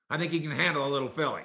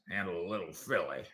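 First: Said in the usual way. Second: Texas cowboy accent. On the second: Shown as a demonstration. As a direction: repeat it as a Texas movie cowboy. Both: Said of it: "Texas cowboy actor accent".

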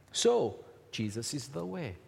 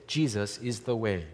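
First: Said in the usual way. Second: "Jesus is the way" said lower, falling at the end; line for the church to repeat. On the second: Shown as a demonstration. Pastor to congregation, a line for them to repeat, lower and falling. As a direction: give them the words to echo. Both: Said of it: "turn to the person next to you and say".

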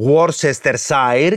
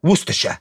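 First: Worcestershire sounded out in full, WOR-ses-ter-SA-er; as written. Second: Worcestershire squeezed to WUS-tuh-shuh; as pronounced. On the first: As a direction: read every syllable of Worcestershire as spelt. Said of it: "Γράφουνε". (Worcestershire όπως γράφεται, «Γουόρσεστερσάερ») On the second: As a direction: say Worcestershire short, WUS-te-sha. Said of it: "και προφέρουνε". (Worcestershire συντομευμένο, «Γούστεσα») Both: Shown as a demonstration.

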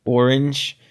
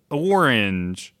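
First: "Orange" tried out as OR-inj; doubtful echo of orange. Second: "orange" drawn out as OR-inj; emphasis on O. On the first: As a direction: repeat "Orange" with the OR, testing it. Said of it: "It's not like either or". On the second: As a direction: lean on the opening O of "orange". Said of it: "The emphasis is on, is on O". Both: Shown as a demonstration.

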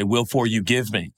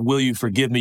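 First: "for" split off and moved, "Will for you give me"; child's word mix-up. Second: Said in the usual way. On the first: Retold or imitated. Father quoting his son's muddled apology, child's word mix-up. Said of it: "Elliot, used to say". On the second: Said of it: "instead of".

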